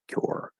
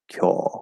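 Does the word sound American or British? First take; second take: American; British. First: It is said with the final R sound. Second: It is said without the final R sound. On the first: "instead of cure" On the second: "that sort of British like kyo"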